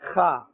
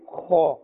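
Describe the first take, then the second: First: The kha sound is thin and light. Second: The kha sound is full and thick. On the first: The speaker calls it wrong. "We should not say" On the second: The speaker calls it right. "a fuller sound or a thicker sound"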